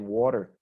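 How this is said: It is said with an American pronunciation. "Americans say"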